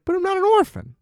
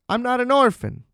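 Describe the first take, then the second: First: Put-on much higher, pleading child's voice stretching "orphan"; high whiny kid voice insisting "But I'm not an orphan". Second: Put-on higher child's voice saying "orphan" firmly; a small girl insisting "I'm not an orphan"; lightly voiced kid, simple protest. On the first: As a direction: repeat it like a desperate little girl. Child protests again.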